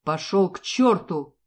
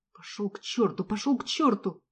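First: Slow, louder furious curse; angry father. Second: Said in the usual way. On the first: Acted. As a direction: spit it out at the mercenary. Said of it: "раздался гневный голос отца". (гневный голос отца)

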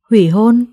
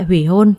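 First: Louder, taken-aback question; startled echo question. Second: Said in the usual way. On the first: A narrator's reading. Girl and her mother question the demand, startled. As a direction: echo HỦY HÔN back in disbelief. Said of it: "đồng thanh hỏi ngược lại".

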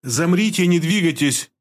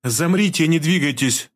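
First: All-out command. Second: Even command. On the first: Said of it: "повторила девушка, выкладываясь до предела". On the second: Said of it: "ровным голосом приказала". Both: A narrator's reading.

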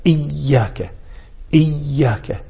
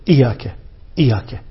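First: إياك as held "iyy-yaaka"; doubled ya. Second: إياك with a light single y, "iyaka"; missing shadda. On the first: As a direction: press and hold the y of إياك. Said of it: "بتشديد الياء". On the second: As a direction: skim over the y of إياك. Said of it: "لا يظهر شدة الياء". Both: Shown as a demonstration.

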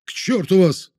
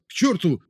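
First: High angry outburst; shouting. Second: Shouting. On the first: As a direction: cry it out in fury. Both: Acted. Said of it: "вновь вскрикнул".

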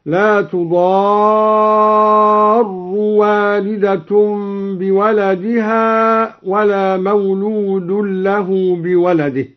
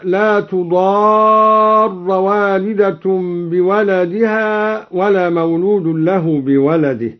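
First: تضار ending on u, tudaaru, drawn out slowly; raised ra in تضار. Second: Said in the usual way. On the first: Shown as a demonstration. Reciter demonstrating تضار with damma. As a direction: hold تضار and close it with u. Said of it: "برفع الراء ... هكذا". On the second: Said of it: "قرأ الدوري برفع الراء".

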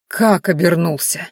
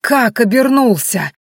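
First: Slow, stunned question; stunned disbelief. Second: Louder, higher, slow furious demand; rising fury. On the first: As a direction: ask it numb with shock. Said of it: "лицо Шедая резко побелело". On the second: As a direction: repeat it as fury breaks through. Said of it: "Губы его исказились от бешенства". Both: A narrator's reading.

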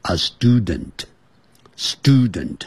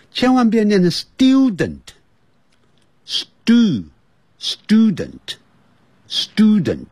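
First: Slow, nasal-released "student" with the d sound; careful American student. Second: High, slow "student" with every t and d spelled out; wrong over-crisp student. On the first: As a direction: say "student" slowly, d dropping into the nose. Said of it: "我也是会乖乖的念成". (美式慢读student) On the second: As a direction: exaggerate the wrong "student", syllable by syllable. (错误的夸张读法student) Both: Shown as a demonstration.

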